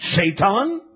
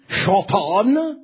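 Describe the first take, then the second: First: The name is said in its usual English form. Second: The name is said in its Hebrew form. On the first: "Basically the same" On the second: "That is how it is enunciated in the Hebrew tongue"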